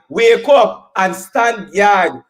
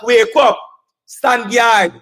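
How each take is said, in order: First: Slow emphatic repeat. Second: Said in the usual way. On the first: Acted. Rally speaker repeats slowly.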